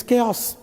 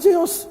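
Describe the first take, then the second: First: "chaos" said softer with a hard k, kay-os; correct chaos. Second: "chaos" pitched up, with a ch as in chair; mispronounced chaos. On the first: Trainer correcting learners, "chaos" pronounced kay-os. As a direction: start "chaos" with a k sound. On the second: Trainer rejecting the mistake, "chaos" with a ch as in chair. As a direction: say "chaos" wrongly, starting "ch" like church. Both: Shown as a demonstration. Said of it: "It's not chaos. It's chaos".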